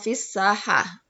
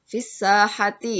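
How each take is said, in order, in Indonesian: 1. Kata ini dipotong, berakhir dengan h. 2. Kata ini berakhir dengan akhiran -ati penuh. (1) "Diwakafkan jadi fisahah"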